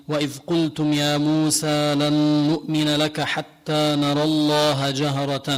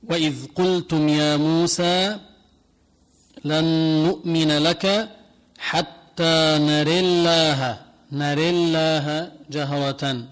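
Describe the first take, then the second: First: Hafs recitation. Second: Slow chanted recitation with نري leaning to e; slow Quran recitation. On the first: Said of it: "فحنقرأ". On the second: Teacher recites the verse in the Susi reading, slow chant. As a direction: recite it slowly, drawing out الله. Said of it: "تقرأها بهذا الشكل". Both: Shown as a demonstration.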